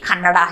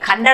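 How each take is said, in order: First: The word ends on an 'a' vowel sound. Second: The word ends on a consonant sound. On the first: The speaker calls it right. "ये कन्नड़ा है" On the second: The speaker calls it wrong. "ये कन्नड़ नहीं"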